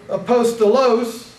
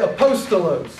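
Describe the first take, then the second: First: The stress is not on the second syllable. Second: The stress is on the second syllable. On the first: The speaker calls it wrong. "You don't say apostolos" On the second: The speaker calls it right. "The emphasis is on the second syllable"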